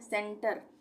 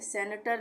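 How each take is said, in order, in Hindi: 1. यह दो अक्षरों में बोला जाता है, कोई अतिरिक्त स्वर नहीं। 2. एक अतिरिक्त स्वर इसे तीन अक्षरों में बाँट देता है।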